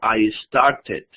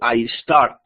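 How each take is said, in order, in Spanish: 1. La terminación añade una sílaba extra. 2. La terminación no tiene una sílaba extra. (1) "sino I started" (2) "ya no digo I start"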